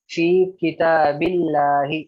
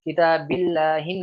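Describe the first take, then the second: First: किताबिल्लाही slow and louder, ending on -hi; correct form demo. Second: किताबिल्लाहिन with the nunation ending -hin; wrong form demo. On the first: Teacher reads the correct Arabic phrase to students. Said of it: "फी किताबिल्लाही पढ़ रहे". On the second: Teacher shows students the wrong reading. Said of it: "नहीं पढ़ रहे हो". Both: Shown as a demonstration.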